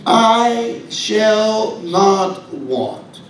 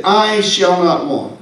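First: Each word "I shall not want" drawn out very slowly; very slow reading. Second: "I shall not want" at a somewhat slow pace; slower quote. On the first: Preacher quoting the psalm, very slow and deliberate. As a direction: let every word of the quote hang. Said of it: "He says". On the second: Preacher restating the psalm, a little slow. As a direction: read the verse unhurried. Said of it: "He said". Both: Shown as a demonstration.

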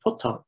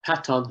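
First: Putton with U as in "put"; Putton, first vowel U, not A; changed form. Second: Patton with an open A; Patton, first vowel A, not U; original form. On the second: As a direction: say Patton as "PAT-awn". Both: Shown as a demonstration. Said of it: "Patton has changed to Putton".

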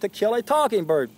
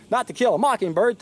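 First: Talking hervorgehoben; Talking gegen Mocking betont; stress on Talking. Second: Said in the usual way. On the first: Shown as a demonstration.

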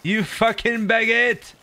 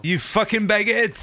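First: Drawn-out mock yell. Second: Mock insult. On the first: Repeated insult, drawn out. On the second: Insulting the French player.

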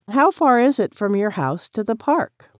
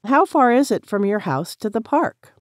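Both takes have the same delivery.

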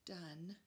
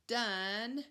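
First: Said in the usual way. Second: Done with a loud punched d; stressed onset. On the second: Shown as a demonstration. Teacher stressing the first sound of Done for kids. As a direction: hit the d in Done hard. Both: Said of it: "What do you guys hear".

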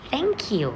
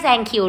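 First: "thank you" opening on a t sound; corrected thank you. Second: "thank you" opening on an s sound; mispronounced thank you. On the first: Teacher correcting the word for pupils, carefully pronounced. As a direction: say "thank you" as "tang-kiw". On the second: Teacher rejecting a wrong reading for pupils, mispronounced. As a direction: say "thank you" as "sank-kiw". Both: Shown as a demonstration. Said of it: "ไม่ ไม่ ไม่".

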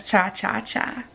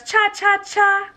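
First: Low, hushed repeat; quiet low chant; softer lower cha cha cha. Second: Perky higher chant; playful chant. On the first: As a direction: drop it down and soft. Repeat of tiny dino line. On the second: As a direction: bounce it up for the little dino. Tiny dino dancing line. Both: Acted.

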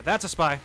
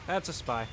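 First: Shouting a warning to the team; loud callout. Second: Said in the usual way. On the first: Real, not acted. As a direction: yell it out to teammates. Calling out a spy to team.

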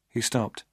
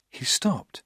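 First: Said in the usual way. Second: Hushed, breathy narration whisper; soft suspenseful whisper. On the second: A narrator's reading. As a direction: drop to a whisper as he freezes. Tense pause in dark room.

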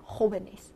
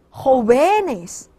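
First: Jóvenes stressed on the first syllable, JO-ve-nes. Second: Jóvenes mis-stressed as jo-VE-nes, VE long and loud; stress shifted to VE. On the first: Teacher gives students the corrected plural, jóvenes stressed as JO-ve-nes. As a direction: keep the stress of jóvenes on JO, last two syllables light. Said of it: "加在o这点儿". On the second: Teacher shows students the shifted plural stress, jóvenes said jo-VE-nes. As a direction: lean hard and slowly on the middle syllable of jóvenes, jo-VEEE-nes. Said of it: "是不是N A C结尾重音在哪儿？". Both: Shown as a demonstration.

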